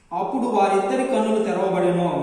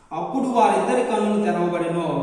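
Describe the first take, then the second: No difference in how they are said.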